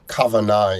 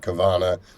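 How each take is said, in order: First: It is said in a contemporary Hebrew pronunciation. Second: It is said in a New York pronunciation. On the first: "in contemporary pronunciation" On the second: "in New York pronunciation"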